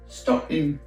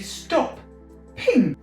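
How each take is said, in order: First: The word runs smoothly without a strong P. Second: A strong P and a break come before 'ping'. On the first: The speaker calls it wrong. "if I don't put that P there" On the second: The speaker calls it right. "if you add a P, you can say"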